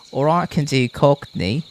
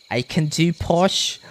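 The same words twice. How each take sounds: First: Louder cockney British English; cockney accent. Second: Higher, slower posh British English; posh British accent. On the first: Streamer showing viewers the accents they can do, cockney. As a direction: switch into a loud cockney accent. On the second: Streamer showing viewers the accents they can do, posh British. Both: Shown as a demonstration.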